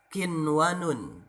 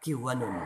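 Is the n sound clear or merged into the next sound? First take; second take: clear; merged. First: The n sound is pronounced clearly and separately. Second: The n sound is merged into the next sound. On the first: The speaker calls it right. "dibacanya jelas idhar" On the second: The speaker calls it wrong. "tidak dibaca kiwanun"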